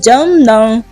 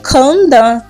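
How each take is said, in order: First: The name begins with a J sound. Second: The name begins with a K sound. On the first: The speaker calls it right. "é Jandan" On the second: The speaker calls it wrong. "eles falam Kandan. Não é Kandan"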